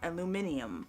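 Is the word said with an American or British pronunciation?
British. It is said with five syllables, British style. The speaker calls it wrong. "not aluminium"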